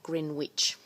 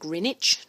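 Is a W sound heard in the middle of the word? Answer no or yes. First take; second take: yes; no. First: The W in the middle is pronounced. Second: The W in the middle is silent. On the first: The speaker calls it wrong. "not Greenwich" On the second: The speaker calls it right. "it's pronounced Greenwich"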